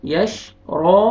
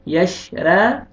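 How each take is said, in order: First: The right way, a thick रॉ; heavy ra. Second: रा said light and thin, drawn out slowly; the wrong way, a thin light रा; demonstrating the mistake with a light रा. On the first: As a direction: correct heavy रॉ as the teacher models it. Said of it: "रॉ को मोटा करके पढ़ेंगे". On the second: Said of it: "गलत". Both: Shown as a demonstration.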